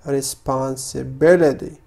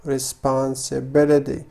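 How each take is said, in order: Both takes have the same delivery.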